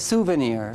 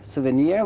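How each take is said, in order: First: The stress is on the first syllable. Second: The stress is on the last syllable. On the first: "when you say souvenir, it is on the first" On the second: "which is on the last"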